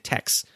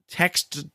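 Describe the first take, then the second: First: The final T sound is left off. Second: The final T sound is clearly pronounced. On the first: "we almost never do that, do we? We just say text" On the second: "I was trying to pronounce the last T in text"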